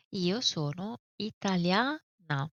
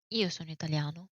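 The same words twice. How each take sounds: First: "italiana" ending in a clear open a, slowed; feminine ending a. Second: "italiano" ending in a clear o; masculine ending o. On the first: Teacher says "italiana" slowly with an open final a. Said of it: "If you are referring to a girl". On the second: Teacher models "italiano" with a crisp final o. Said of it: "The desinence o, as we said, it's masculine". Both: Shown as a demonstration.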